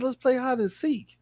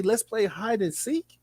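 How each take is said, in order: First: Said in the usual way. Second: Slow, soft mocking sing-song; mock-innocent slow invite; mocking quote. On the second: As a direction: mimic a creepy invitation, drawn out. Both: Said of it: "Who the fuck says".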